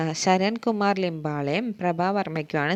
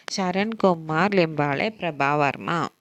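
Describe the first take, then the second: First: Said in the usual way. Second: Slow, clear names. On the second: Shown as a demonstration. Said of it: "repeated for learners".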